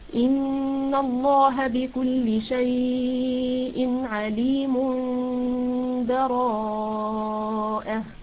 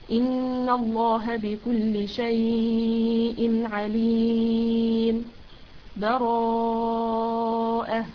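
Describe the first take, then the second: First: The last word follows directly with no pause. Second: A full stop with a breath precedes the last word. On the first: "الوصل" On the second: "الوقف مثل ما قرأتها كده، تأخذي نفس"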